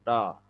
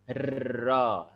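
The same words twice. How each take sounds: First: The r is trilled with only a few vibrations. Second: The r is trilled with many vibrations. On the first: The speaker calls it right. "pantulannya itu hanya beberapa saja" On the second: The speaker calls it wrong. "getarnya tidak sangat banyak. Jadi bukan her, ro, tidak begitu"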